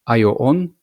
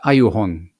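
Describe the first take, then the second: First: The vowels run together with no h sound. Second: An h sound separates the vowels before 'on'. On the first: The speaker calls it wrong. "So not ayo on" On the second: The speaker calls it right. "but ayo hon, which sounds a bit easier, more fluent"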